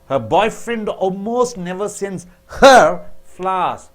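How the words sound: The word her is stressed. He sends flowers to others but not to her. "When you stress on her"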